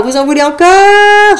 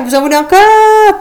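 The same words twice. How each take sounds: First: Hyped crowd call. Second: Louder hyped crowd call. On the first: Host asks crowd, first time. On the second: Host repeats louder for crowd. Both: Acted.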